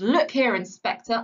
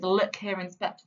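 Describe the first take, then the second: First: A touch of bluster on Look here; mildly aggressive quote. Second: Said in the usual way. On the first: Retold or imitated. Teacher quoting the angry father to the inspector, Look here louder. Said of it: "he gets quite aggressive". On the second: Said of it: "that imperative phrase".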